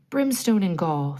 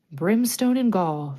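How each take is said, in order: First: Thundering curse. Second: Loud, slow pirate curse in borrowed voice; mock Hook retort. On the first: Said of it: "thundered Hook". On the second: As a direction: throw his own curse back at him. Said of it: "the voice retorted". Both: A narrator's reading.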